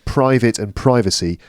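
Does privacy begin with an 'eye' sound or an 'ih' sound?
eye sound. Privacy begins with the same long vowel as private. The noun matches the adjective. "it sounds like private"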